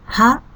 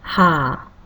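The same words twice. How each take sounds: First: The vowel is held briefly. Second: The vowel is held twice as long.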